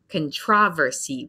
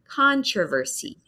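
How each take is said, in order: First: The stress falls on a later syllable. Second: The stress falls on the first syllable. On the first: This is the British pronunciation. "in British English, they say controversy" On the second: This is the American pronunciation. "it's the big syllable at the beginning"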